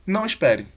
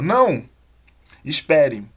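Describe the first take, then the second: First: The two words run together without a pause. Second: There is a pause between the two words. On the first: Don't wait; the person is leaving. "a gente só tem uma informação" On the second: Don't leave; wait for me. "Tem duas coisas, né? Não vá embora, me espere"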